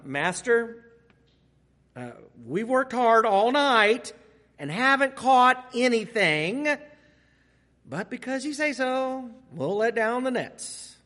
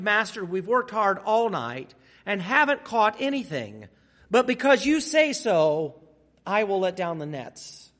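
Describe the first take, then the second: First: It is said with reluctant, sarcastic tone. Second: It is read in a plain, neutral tone.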